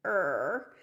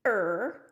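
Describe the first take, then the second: First: Stretched creaking "Er"; creaking cry. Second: Loud creaking "er"; creaking cry. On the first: Teacher showing the tree branch sound, creaking "Er". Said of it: "it's gonna sound like this". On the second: Teacher showing creaking branches, a loud creaking "er". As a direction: let "er" creak like a crying branch. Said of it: "Hear the tree branches". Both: Shown as a demonstration.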